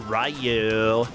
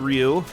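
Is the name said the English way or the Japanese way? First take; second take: English; Japanese. First: The name is said with an English sound. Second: The name is said closer to Japanese. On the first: The speaker calls it wrong. "as a kid, I'd say Ryu" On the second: The speaker calls it right. "probably closer to Ryu"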